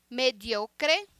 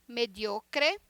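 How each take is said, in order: Both takes have the same delivery.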